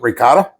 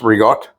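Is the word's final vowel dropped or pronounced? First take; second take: pronounced; dropped. First: The word ends with a full final vowel. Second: The word is clipped, dropping its final vowel. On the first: "for those of you that want to pronounce it ricotta" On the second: "it's Rigot"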